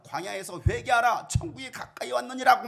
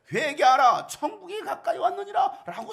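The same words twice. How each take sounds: First: Loud, sung-out call to repent; a prophet's chant to the crowd; chanted proclamation. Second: Much louder and higher, a full-force cry of 회개하라; a proclaiming cry, higher and louder; loud proclamation. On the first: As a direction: lightly chant it like a prophet in the wilderness. John the Baptist's proclamation retold. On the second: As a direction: shout it out to the whole crowd, breaking into a laugh. Jesus repeating the same proclamation. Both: Retold or imitated.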